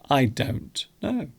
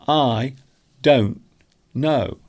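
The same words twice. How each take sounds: First: The T in 'don't' is clearly pronounced. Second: The T in 'don't' is almost silent. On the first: "the proper way to pronounce it would be with the strong T" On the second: "I'm actually making the T silent. It's almost non-existent"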